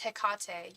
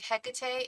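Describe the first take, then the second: First: Hecate stressed on the middle syllable, heh-KAH-tay; stress on second syllable. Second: Hecate stressed on the first syllable, HEK-uh-tay. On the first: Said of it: "You're right". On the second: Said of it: "putting the emphasis on the wrong syllable". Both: Shown as a demonstration.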